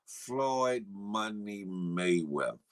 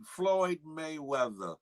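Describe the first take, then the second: First: "Floyd Money Mayweather" dropped very low and slow; deep drawn-out name. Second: Slow, savored "Floyd Mayweather" at normal pitch; drawn-out name. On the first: Hyping the name, deeper second take. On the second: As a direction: stretch out "Floyd Mayweather" slowly. Hyping a viewer's name, first take. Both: Real, not acted.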